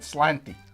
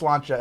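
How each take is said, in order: First: The word ends with an 'ee' sound. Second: The word ends with a 'cha' sound. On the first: The speaker calls it wrong. "I always pronounced it slanty" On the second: The speaker calls it right. "but it's slancha"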